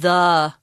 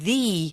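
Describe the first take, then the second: First: The word is said with a short 'thuh' vowel. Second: The word is said with a long 'thee' vowel. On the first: "change the pronunciation of the" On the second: "Because the name of the school starts with an I"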